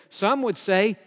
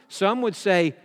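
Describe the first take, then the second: Both takes have the same delivery.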